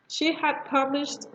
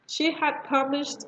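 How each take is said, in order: First: The word had is said in full. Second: The same.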